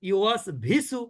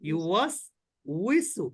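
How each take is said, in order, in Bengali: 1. দ্বিতীয় অংশটি v ধ্বনি দিয়ে শুরু হয়। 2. দ্বিতীয় অংশটি w ধ্বনি দিয়ে শুরু হয়। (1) "এর কোনোটাই ঠিক ঠিক না।" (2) "তাহলে কি বলবো ইউয়াস উইসু"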